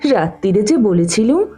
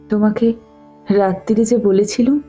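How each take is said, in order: First: It is said in a mocking, mimicking voice. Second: It is said in a plain, meek tone.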